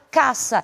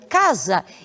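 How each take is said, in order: First: The middle consonant is a voiceless S sound. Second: The middle consonant is a voiced Z sound. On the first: The speaker calls it right. "e sim será caça" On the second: The speaker calls it wrong. "nós nunca vamos pronunciar como casa"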